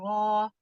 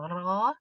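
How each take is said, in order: First: It is said with the lips pushed forward. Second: It is said with the lips held neutral. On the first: The speaker calls it wrong. "ro fathah dibaca dengan memajukan bibir ... itu nggak tidak dibenarkan" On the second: The speaker calls it right. "Jadi bibirnya biasa aja gitu"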